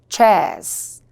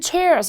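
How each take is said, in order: First: It is said with a British accent. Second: It is said with an American accent.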